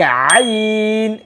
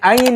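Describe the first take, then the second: First: It begins with a deep throat sound. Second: It begins with a light glottal catch. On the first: The speaker calls it right. "गले से आवाज निकालनी है" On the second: The speaker calls it wrong. "आइन को हम हमजा के साथ मिलाकर पढ़ लेते हैं"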